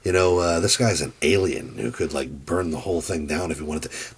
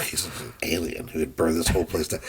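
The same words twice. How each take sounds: First: Said in the usual way. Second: Lightly voiced disgust, spitting out alien. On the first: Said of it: "He's like". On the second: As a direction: sneer at the word alien. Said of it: "The way he says alien in that line read is with such disgust".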